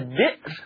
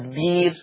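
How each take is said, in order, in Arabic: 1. تُنطق الهمزة في الكلمة. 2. تُبدل الهمزة بحرف مد طويل.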